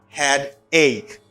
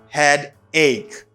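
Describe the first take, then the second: The two takes are said the same way.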